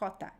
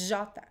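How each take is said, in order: First: It begins with a breathy h sound. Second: It begins with a buzzing zh sound. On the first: The speaker calls it wrong. "in Portuguese is not jota" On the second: The speaker calls it right. "it's jota. So the sound is j"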